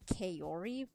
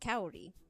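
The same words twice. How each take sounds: First: The name is said with an American accent. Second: The name is said with a Japanese-like accent. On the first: The speaker calls it wrong. "that's like a very American way of saying it" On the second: The speaker calls it right. "I figured it must be Kaori"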